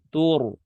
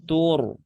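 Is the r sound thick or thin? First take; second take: thick; thick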